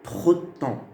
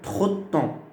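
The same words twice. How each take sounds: No difference in how they are said.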